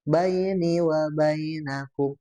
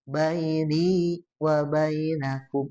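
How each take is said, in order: First: It is recited quickly with short vowels. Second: It is recited slowly with lengthened vowels. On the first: The speaker calls it wrong. "tadi agak cepat" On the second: The speaker calls it right. "harusnya di taruh"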